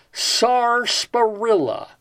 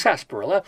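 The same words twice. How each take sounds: First: "sarsaparilla" slowly, first R fully sounded; spelling pronunciation. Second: "sarsaparilla" quickly, first R dropped, as SASS; usual spoken pronunciation. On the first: Host reading the dictionary entry, "sarsaparilla" slow with R sounded. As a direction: draw out "sarsaparilla" as spelt, starting SAR. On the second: Host giving how it is pronounced, "sarsaparilla" quick without first R. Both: Shown as a demonstration. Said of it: "which is pronounced sarsaparilla".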